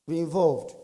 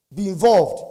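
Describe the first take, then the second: First: Said in the usual way. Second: Loud, punched exhortation; emphatic urging. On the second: Real, not acted. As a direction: drive it home to the audience. Urging the audience, then repeats softer.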